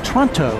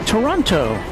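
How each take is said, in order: First: The word is squeezed into one short syllable. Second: The word is said with all its syllables.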